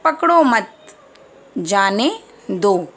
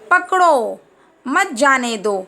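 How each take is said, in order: First: There is a pause after the second word. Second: There is a pause after the first word. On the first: Do not hold the child; let them go. "पकड़ो मत के बाद हमने क्या लगाया है? Comma." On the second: Hold the child; do not let them go. "पकड़ो, जैसे हम कहते हैं ना"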